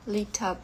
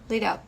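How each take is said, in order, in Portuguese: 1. O t é pronunciado como um t claro. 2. O t vira um flap rápido, parecido com r. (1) "como se fosse um, o T mesmo" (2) "isso aqui vira um R"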